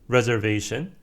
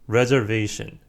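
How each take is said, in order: No difference in how they are said.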